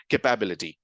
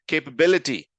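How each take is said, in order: First: Kuh-PAB-ility, stress wrongly on PAB; common mispronunciation. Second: Kay-puh-BIL-i-ty, firm stress on BIL; correct pronunciation. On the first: Teacher showing learners' mistake, "capability" mispronounced with stressed PAB. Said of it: "heard a lot of people pronounce this as". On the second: Teacher confirming the answer, "capability" stressed correctly on BIL. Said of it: "is the way to pronounce it". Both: Shown as a demonstration.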